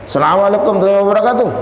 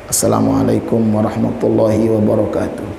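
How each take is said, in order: First: It is said at ordinary volume and force. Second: It is said softly and with little force. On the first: An ordinary community leader greeting people. "kan biasa tuh" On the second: A Quran reciter greeting before reciting. "Kecil dia salamnya"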